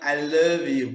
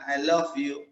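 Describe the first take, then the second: First: Love ends with a voiced v sound. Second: Love ends with a voiceless f sound. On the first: The speaker calls it right. "jadi itu I love you" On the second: The speaker calls it wrong. "bukan I love you"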